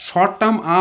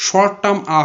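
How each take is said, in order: Both takes have the same delivery.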